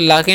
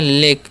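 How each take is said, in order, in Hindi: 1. इसमें दो अक्षर हैं, स्वर 'ah' है। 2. इसमें एक अक्षर है, स्वर 'ay' है। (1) "लाके नहीं" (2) "हम लोग पढ़ते हैं लेक"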